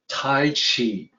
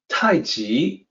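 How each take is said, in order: First: The second word begins with a CH sound. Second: The second word begins with a J sound. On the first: The speaker calls it wrong. "the C H sound, Tai Chi in English" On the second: The speaker calls it right. "the second character there, is a J sound"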